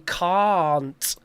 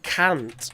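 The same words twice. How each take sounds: First: The vowel sounds like in 'car'. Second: The vowel sounds like in 'Kant'. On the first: The speaker calls it right. "We say can't, like car with an nt on the end" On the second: The speaker calls it wrong. "we don't say can't, which is like the philosopher Immanuel Kant"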